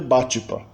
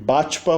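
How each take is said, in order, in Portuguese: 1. Uma vogal extra é inserida entre t e p. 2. O t encontra o p diretamente, sem vogal entre eles. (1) "vai ter Batipa" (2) "E Batpa"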